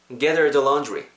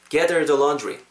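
Both takes have the same delivery.

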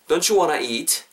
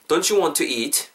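First: The words 'want to' merge into 'wanna'. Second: The words 'want to' are said in full. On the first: "2가 붙으면서 자연스럽게 원하 이렇게 변하는 경우가 허다하죠" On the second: "Don't you want to eat 이렇게 한 개 연습하시고요"

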